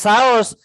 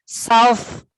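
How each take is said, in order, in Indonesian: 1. Kata ini berakhir dengan bunyi s biasa. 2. Kata ini berakhir dengan bunyi th. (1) "Bukan saus, saus cabai apa saus tomat?" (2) "South East"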